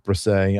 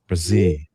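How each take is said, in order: First: The name ends with an 'ay' vowel sound. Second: The name ends with an 'ee' vowel sound. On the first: The speaker calls it wrong. "What is it with the A sound" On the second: The speaker calls it right. "Two E's at the end. It's Brzee"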